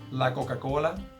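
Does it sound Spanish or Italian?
Spanish. It is said with a Spanish sound.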